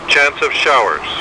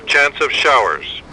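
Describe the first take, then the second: No difference in how they are said.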